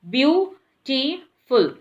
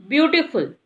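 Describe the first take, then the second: First: Beautiful said slowly, syllable by syllable: beau-ti-ful; split into syllables. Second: Said in the usual way. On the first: Shown as a demonstration. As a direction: stretch beautiful out into three clear parts. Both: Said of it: "we are making it in three parts".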